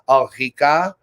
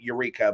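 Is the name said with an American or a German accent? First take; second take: German; American. First: The name is said with German sounds. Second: The name is said with an American accent. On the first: "it's actually like Ulrika. So like you like roll the L and the R" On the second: "you announce it in American"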